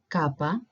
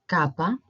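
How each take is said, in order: Both takes have the same delivery.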